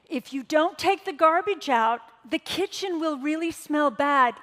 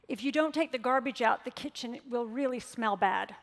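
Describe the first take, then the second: First: It is said in a harsh, punishing tone. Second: It is said in a calm, neutral tone. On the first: The child is being called an idiot. The speaker calls it wrong. "your tone of voice did" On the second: The problem is simply stated without blame. The speaker calls it right. "without a punishing tone of voice"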